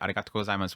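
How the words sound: It is said relaxed with a falling intonation.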